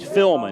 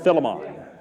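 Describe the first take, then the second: First: The name is said with two syllables. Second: The name is said with three syllables. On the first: The speaker calls it right. "Philman, not Philemon" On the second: The speaker calls it wrong. "not Philemon"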